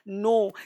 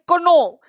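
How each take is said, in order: First: The word starts directly with an N sound. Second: A K sound is pronounced before the N. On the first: The speaker calls it right. "लेकिन पढ़ते क्या है नो" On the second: The speaker calls it wrong. "अब इसको पढ़ना चाहिए कोनो"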